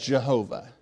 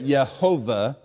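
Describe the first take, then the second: First: The name begins with a J sound. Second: The name begins with a Y sound. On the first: The speaker calls it wrong. "there's no J sound in Hebrew. So they wouldn't have said it Jehovah" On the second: The speaker calls it right. "They could have said it Yehovah"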